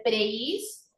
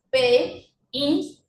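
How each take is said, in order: First: "prehistoria" in three pieces, preis, to, ria; split into three syllables. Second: "prehistoria" in four separate pieces, pre, his, to, ria; split into four syllables. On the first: Teacher correcting the division, "prehistoria" as preis, to, ria in three beats. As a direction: join pre and his, then pause before to and ria. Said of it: "debieran separar solo en tres". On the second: Teacher reading out a false division, "prehistoria" split into four syllables. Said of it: "la división correcta es". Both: Shown as a demonstration.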